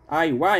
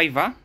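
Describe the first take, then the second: First: The name begins with an 'eye' diphthong. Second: The name begins with a plain 'ee' vowel. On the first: This is the original Japanese way of saying it. "który mówił inaczej. Aiwa, jakoś tak. Po japońsku bodajże tak jest prawidłowo" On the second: This is how most Polish speakers say it. "większość właśnie wymawia jako Iva"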